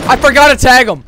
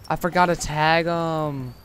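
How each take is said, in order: First: Loud, high angry complaint; furious at himself, loud and high. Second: Said in the usual way. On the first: Real, not acted. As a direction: snap it out loud in real anger. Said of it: "I'm fucking mad". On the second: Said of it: "I'm so pissed off".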